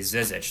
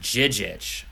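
First: The name starts with a z sound. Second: The name starts with a j sound. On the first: The speaker calls it wrong. "what I would thought was Ante Zizic" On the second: The speaker calls it right. "the Z's are supposed to be pronounced like J's"

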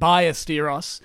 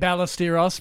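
First: The name is said with a Spanish pronunciation. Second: The name is said with an Australian accent. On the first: The speaker calls it right. "for the correct pronunciation" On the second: The speaker calls it wrong. "As Australians would say"

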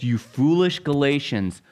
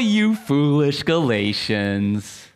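First: It sounds stern, exasperated and scolding. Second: It sounds light, teasing and playful. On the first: The speaker is exasperated, like an upset parent. The speaker calls it right. "That's not the tone at all. It's" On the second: The speaker is gently joking with them. The speaker calls it wrong. "kind of being funny and being like, "Oh, you.""

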